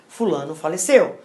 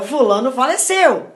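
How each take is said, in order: First: It is said in a sorrowful, grave tone. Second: It is said in a cheerful, smiling tone. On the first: The speaker shares in the grief. The speaker calls it right. "é com pesar, com os sentimentos que eu transmito" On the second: The bad news is delivered inappropriately. The speaker calls it wrong. "não podemos dar uma notícia ruim sorrindo"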